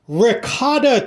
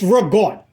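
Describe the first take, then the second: First: The word has three full syllables with a final vowel. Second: The word is clipped, dropping the final vowel. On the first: The speaker calls it wrong. "I've heard it called ricotta cheese. I don't know what you're talking about" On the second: The speaker calls it right. "It's called ragout, not ricotta"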